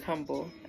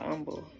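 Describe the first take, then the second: First: It is pronounced the ordinary dictionary way. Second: It is pronounced the local city-name way. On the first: It is the everyday adjective. "I know the word is humble" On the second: It names the city. "that's exactly how I was just saying it"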